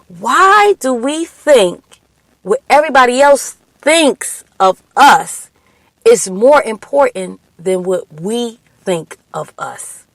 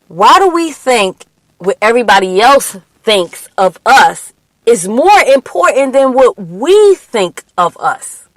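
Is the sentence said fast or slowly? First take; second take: slowly; fast. First: The sentence is said at a slower pace. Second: The sentence is said at a quicker pace.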